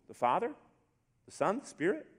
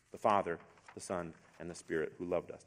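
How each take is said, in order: First: "Father", "Son", "Spirit" each lifted as a separate question; questioning rise. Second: "Father", "Son", "Spirit" as a low, falling list; settled falling statement. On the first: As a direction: ask "Father", "Son", "Spirit" with climbing rises and pauses. Questions before answering yes. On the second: The answer to those questions. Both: Shown as a demonstration.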